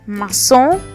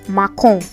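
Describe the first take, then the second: First: The c is pronounced as an s sound. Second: The c is pronounced as a k sound. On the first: The speaker calls it right. "the accent cedille is there to ensure that we have the sound" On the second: The speaker calls it wrong. "you're going to be saying macon, ... which is wrong"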